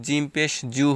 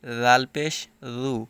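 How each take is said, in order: First: জিম and জু with a firm j sound; hard j. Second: রাল and রু begun with a soft voiced th, as in "this"; light th-sound opening রাল and রু. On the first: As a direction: say জিম পেশ জু with a hard affricate j. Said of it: "শক্ত হবে". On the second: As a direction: say রাল পেশ রু with a thin, gentle th. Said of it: "নরম হবে". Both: Shown as a demonstration.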